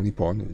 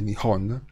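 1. La consonante centrale è una p doppia trattenuta. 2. La consonante centrale è un suono h dolce. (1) "Nippon è la pronuncia che si usava ai tempi prima della seconda guerra mondiale" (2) "si dice Nihon"

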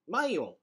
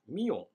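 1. 名前は'my'の音で始まります。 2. 名前は'me'の音で始まります。

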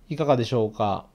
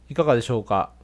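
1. 声は少しこもっていますが、音量は大きいです。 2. 声がとてもクリアで、はっきりしています。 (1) "若干ねこもる感じあるかなというふうに感じました。" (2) "この外部マイクを使うと非常にクリアで驚きました。"

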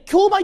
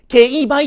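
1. この言葉は「kyou」の音で始まる。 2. この言葉は「kei」の音で始まる。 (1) "一般的にはね、競売って言うと思うんです" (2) "法律世界では、まず、権威売"

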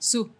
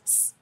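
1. La sílaba se dice con una u completa. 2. Solo se dice el sonido de la s, sin vocal. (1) "No la pronuncian así" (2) "no pronuncian la U, nada más como S"

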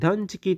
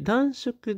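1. 「断食」は danjiki と読む。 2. 「断食」は danshoku と読む。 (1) "断食と読むんですね" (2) "暖色ではなくて"

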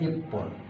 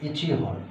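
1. এটি ippon হয়ে একসাথে জোড়া লাগে, p দুইবার হয়। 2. এটি ichi এবং hon আলাদা করে বলা হয়। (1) "কিন্তু উচ্চারণটা হবে ইপ্পন" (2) "ইচি যোগ হন"

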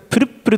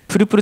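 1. 2番目の'puru'の前に、短い詰まりがあります。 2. 'puru'の前に詰まりはなく、言葉がスムーズに流れています。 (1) "ちっちゃいツーは必要ですね" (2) "プルプルじゃなくて"

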